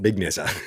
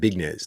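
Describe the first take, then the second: First: The name is said in an Australianized way. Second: The name is said plainly, not Australianized. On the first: The speaker calls it wrong. "not Big Neza ... you're Australianizing it" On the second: The speaker calls it right. "I'll just correct you right there. Big Nez"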